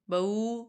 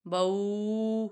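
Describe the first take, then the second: First: بو said short with no stretch; short, correct. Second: بو with the vowel dragged long; wrong, stretched. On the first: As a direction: clip بو short, the right way. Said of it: "کھینچنا نہیں ہے". (صحیح، بغیر کھینچے بو) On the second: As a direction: stretch بو out too long, as the mistake. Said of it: "غلط ہو جائے گا". (غلط، کھینچ کر بو) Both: Shown as a demonstration.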